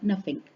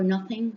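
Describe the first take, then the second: First: The word has an F sound and ends in K. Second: The word has a TH sound and ends in G. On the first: "sounds like nothing" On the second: "goes for nothing"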